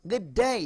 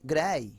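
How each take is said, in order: First: "good day" pitched up, both words distinct; both d's sounded. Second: "good day" run together as g'day, one d; fuse "good day" into g'day; merged double sound. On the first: Teacher contrasting the full form, distinct and higher. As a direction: lift "good day" and keep the words apart. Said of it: "double sound থাকলে". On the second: Teacher contrasting the native shortcut, merged. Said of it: "তারা উচ্চারণ করে না". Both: Shown as a demonstration.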